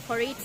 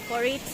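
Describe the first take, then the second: No difference in how they are said.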